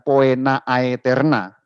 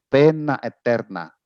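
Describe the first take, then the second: First: The vowels are sounded as two-vowel glides. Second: The vowels are sounded as a plain e. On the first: The speaker calls it wrong. "dibacanya bukan begitu" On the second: The speaker calls it right. "tapi dibacanya pena eterna"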